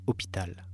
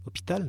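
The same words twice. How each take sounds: First: «Hôpital» soufflé, chuchoté sans voix, en descendant; whispered word. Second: «Hôpital?» lancé beaucoup plus haut, étonné, qui monte; surprised question. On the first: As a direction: murmure «Hôpital» comme un conseil discret. Narrator quotes the man's advice. («Hôpital» chuchoté) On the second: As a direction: reprends «Hôpital?» avec surprise, voix qui grimpe. Narrator's surprised reply. («Hôpital?» surpris, très aigu) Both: Retold or imitated.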